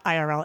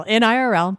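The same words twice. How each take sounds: First: Said in the usual way. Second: "In I R L" said firmly with the IN included; stressed IN I R L. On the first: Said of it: "That's what we say in I R L". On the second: Shown as a demonstration. Correcting how the phrase is said, emphatic "In I R L". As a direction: insist on "In I R L" as the proper phrase. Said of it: "That's what we say in I R L, not".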